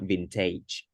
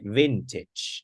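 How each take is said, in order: First: The ending sounds like 'age'. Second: The ending sounds like 'itch'. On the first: The speaker calls it wrong. "not vintage" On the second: The speaker calls it right. "That's right"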